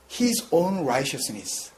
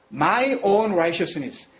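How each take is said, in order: First: "his own righteousness" drawn out very slowly; slow emphatic reading. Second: "my own righteousness" drawn out very slowly; slow emphatic reading. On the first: Preacher stressing "his" slowly for the congregation. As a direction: lean on "his" slowly, word by word. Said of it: "His righteousness가 아니라 his, capital H". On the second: Preacher contrasting "my" slowly for the congregation. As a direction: press "my" slowly, word by word. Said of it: "작은 이 스몰 레터". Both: Shown as a demonstration.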